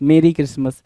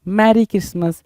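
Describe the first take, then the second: First: The first vowel sounds like the one in bed. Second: The first vowel sounds like the one in bad. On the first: The speaker calls it right. "यहाँ पे बोलेंगे मेरी" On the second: The speaker calls it wrong. "मैरी नहीं होता लल्ला"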